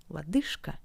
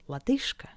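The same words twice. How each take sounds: First: The consonant before K is a voiceless sh. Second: The same.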